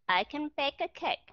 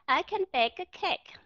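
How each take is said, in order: First: Slow, with the N of can blending into bake; slow model sentence. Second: Higher, with stress on can; model sentence. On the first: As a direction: say I can bake a cake slowly, linking can into bake. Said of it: "hãy đọc cái chữ I can bake". (đọc chậm I can bake a cake, nối can với bake) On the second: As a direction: say I can bake a cake clearly, stressing can. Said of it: "ví dụ các bạn đọc những cái câu". (đọc mẫu I can bake a cake, nhấn chữ can) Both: Shown as a demonstration.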